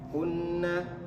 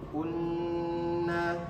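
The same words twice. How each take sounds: First: The nasal n is cut short. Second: The nasal n is held long. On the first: The speaker calls it wrong. "Jangan langsung kunna" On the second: The speaker calls it right. "tapi tahan dulu"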